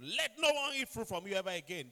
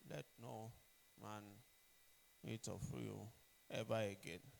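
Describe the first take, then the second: First: It is said with firm confidence. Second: It is said without confidence, hesitantly.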